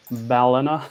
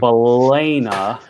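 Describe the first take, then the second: First: Balena said as BAL-uh-nuh, rising; Balena with short a. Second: Balena said slowly as buh-LAY-nuh, rising; Balena with long a. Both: Shown as a demonstration. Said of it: "pronounced three different ways".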